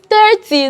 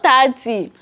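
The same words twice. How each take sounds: First: The first vowel sounds like 'ir'. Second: The first vowel sounds like 'a'. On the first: The speaker calls it right. "It is I R. There is no A there" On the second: The speaker calls it wrong. "where is A coming from in thirty?"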